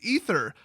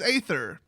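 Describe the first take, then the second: First: The word begins with an 'ee' sound. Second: The word begins with an 'ay' sound. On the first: This is the usual pronunciation of the word. "when spelled correctly, that word is pronounced ether" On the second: This follows the unusual spelling of the word. "the way they spelled it, it says aether"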